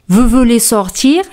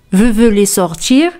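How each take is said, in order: First: "Vous voulez sortir?" with pitch rising on "sortir"; rising question intonation. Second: "Vous voulez sortir?" rising on "sortir"; rising question intonation. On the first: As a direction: lift the voice at the end on "sortir". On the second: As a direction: repeat it with the voice rising at the end. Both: Shown as a demonstration. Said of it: "se expresa con la entonación".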